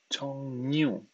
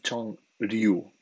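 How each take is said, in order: First: The second syllable starts with a nasal ny sound. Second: The second syllable starts with an r sound. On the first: The speaker calls it right. "Atención a la pronunciación" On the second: The speaker calls it wrong. "No es Chongryu"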